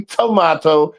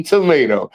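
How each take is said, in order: First: "tomato" with middle vowel as AH; broad A pronunciation. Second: "tomato" with middle vowel as AY; long A pronunciation. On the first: Contrasting how others say it, "tomato" with an AH. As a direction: say "tomato" as tuh-MAH-toh. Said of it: "You say tomato". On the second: Contrasting his own way, "tomato" as tuh-MAY-toh. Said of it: "I say tomato". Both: Shown as a demonstration.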